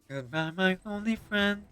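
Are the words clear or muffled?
muffled. The words are swallowed and hard to make out. The speaker calls it wrong. "swallowing your words"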